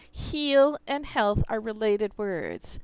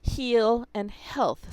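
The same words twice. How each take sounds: First: "Heal and health" said slowly and clearly, stressing "heal"; teacher driving home "Heal" and "health"; slow emphatic. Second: "heal and health" said slowly, each word pronounced clearly; teacher stressing "heal" and "health" slowly; slow stressed heal and health. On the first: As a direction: lay weight on "Heal" and "health". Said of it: "If you want to have good health". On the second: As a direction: draw out "heal" and "health" for contrast. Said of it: "is the word". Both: Shown as a demonstration.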